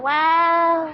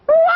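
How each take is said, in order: First: It sounds flat and unexcited. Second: It sounds lively and excited.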